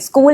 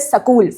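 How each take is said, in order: First: The word starts with the cluster sk. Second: A vowel breaks up the sk cluster.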